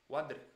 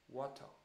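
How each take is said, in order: First: It is said with an Indian accent. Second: It is said with a British accent.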